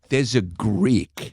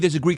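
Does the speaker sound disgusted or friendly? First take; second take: disgusted; friendly. First: It is said in a disgusted, contemptuous tone. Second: It is said in a light, friendly tone. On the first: It is meant as an insult. The speaker calls it wrong. "it's how disgusted you are" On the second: It is just a neutral remark. The speaker calls it right. "You say it like that"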